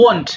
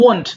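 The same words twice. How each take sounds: Both takes have the same delivery.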